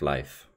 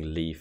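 First: The name is said the native Norse way. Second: The name is said the anglicized English way. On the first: The speaker calls it right. "instead of Leif" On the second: The speaker calls it wrong. "enjoy me saying Leif"

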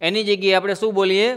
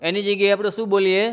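The two takes are said the same way.

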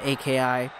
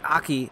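First: The name is spelled out letter by letter. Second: The name is said as one word. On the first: The speaker calls it wrong. "that bad habit of saying AKI" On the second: The speaker calls it right. "I should say Aki"

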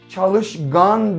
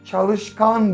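First: The suffix begins with a voiced 'g' sound. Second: The suffix begins with a voiceless 'k' sound. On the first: The speaker calls it wrong. "Çalışgan demeyiz" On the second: The speaker calls it right. "O çok çalışkan birisidir deriz"

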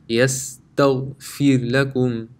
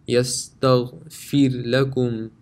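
No difference in how they are said.

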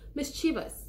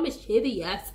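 First: The ending is clipped short, without an extra syllable. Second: The ending has an extra syllable, sounding longer. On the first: The speaker calls it right. "there's a shortcut tongue thing you do at the end" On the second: The speaker calls it wrong. "It's not mischievous"

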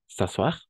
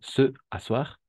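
First: The vowel of 'se' is dropped and linked. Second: The vowel of 'se' is fully pronounced. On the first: "donc s'asseoir" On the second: "de la même façon, se asseoir"

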